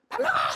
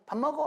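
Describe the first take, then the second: First: It is said in an angry, threatening tone. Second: It is said in a calm, ordinary call.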